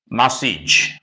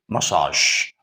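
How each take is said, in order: First: The ending follows the English pattern. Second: The ending follows the French pattern. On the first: The speaker calls it wrong. "do not pronounce it massage" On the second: The speaker calls it right. "Because this word originates in French"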